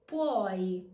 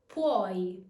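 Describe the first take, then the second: Both takes have the same delivery.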